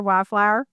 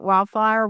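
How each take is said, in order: First: Wildflower with a laugh and a rising end, Missouri accent; laughing repeat. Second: Wildflower said the backwoods Missouri way, close to wildfire; careful backwoods Missouri Wildflower; Missouri accent. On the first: Host laughing at her own Missouri accent. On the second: Host repeating her word in her Missouri accent. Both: Shown as a demonstration. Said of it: "backwoods Missouri accent".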